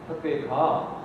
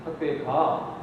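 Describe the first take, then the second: First: It is said strongly, like a scolding command. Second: The same.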